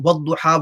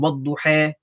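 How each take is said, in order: First: The final vowel is said plainly, not lengthened. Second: The final vowel is lengthened a little.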